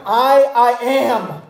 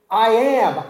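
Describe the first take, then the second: First: Slow, weighty "I, I am" with the first I stressed; emphatic I. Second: Said in the usual way. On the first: Shown as a demonstration. Preacher showing the congregation Jesus's emphatic I, stressed and slow. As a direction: lean hard on "I" in "I, I am", drawing it out. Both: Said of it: "It's an emphatic I".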